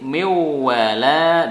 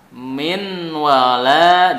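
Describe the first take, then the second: First: The n disappears and merges into the w. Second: The n is pronounced clearly before the w.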